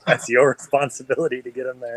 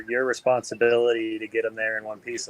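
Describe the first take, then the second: First: "your" hit harder and held, with a laugh; stress on your. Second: Said in the usual way. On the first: Retold or imitated. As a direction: lean on "your" to push the blame back. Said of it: "I'm like". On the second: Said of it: "They're like".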